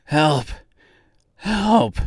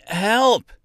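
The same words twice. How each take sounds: First: Winded cries for help, rising higher; breathless, desperate calls; gasping. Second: High-pitched cry for help; narrator's restrained scream. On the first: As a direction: plead with what breath is left. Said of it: "he gasped". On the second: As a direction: call out in panic, voice leaping up. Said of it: "he screamed out". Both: A narrator's reading.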